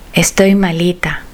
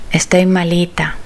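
The two takes are said the same way.

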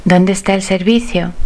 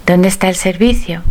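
Both takes have the same delivery.

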